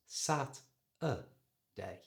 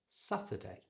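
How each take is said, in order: First: Slow split sat-a-day, middle a plain uh without R; schwa in middle. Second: Softer, quick Saturday with schwa and silent R; joined-up pronunciation. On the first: Teacher demonstrating the schwa, sat-a-day in slow pieces. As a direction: separate sat-a-day with a weak uh between. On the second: Teacher giving the finished word, Saturday softly joined up. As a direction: run Saturday together as satuhday. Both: Shown as a demonstration. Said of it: "this word is pronounced".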